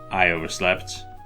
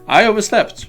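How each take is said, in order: First: It is said in a plain, neutral way. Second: It is said in a proud way.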